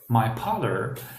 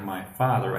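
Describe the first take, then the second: First: Father begins with a P sound. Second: Father begins with an F sound. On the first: The speaker calls it wrong. "So he was saying like" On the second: The speaker calls it right. "he meant like"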